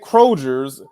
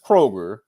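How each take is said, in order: First: The word ends with an extra s sound. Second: The word ends without an s sound. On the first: The speaker calls it wrong. "It ain't Kroger's" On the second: The speaker calls it right. "it's just Kroger"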